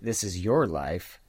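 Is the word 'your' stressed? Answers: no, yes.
yes. The word your is stressed. The title applies to the listener. "if you say This Is Your Life, then maybe you can find ways that it applies to you too"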